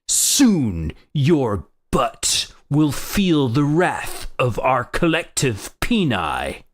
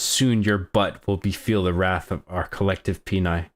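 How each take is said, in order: First: It is said in a Xanthar character voice. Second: It is said in his normal voice.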